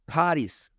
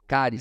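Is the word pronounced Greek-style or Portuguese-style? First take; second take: Greek-style; Portuguese-style. First: The word has a Greek-style pronunciation. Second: The word has a Portuguese-style pronunciation.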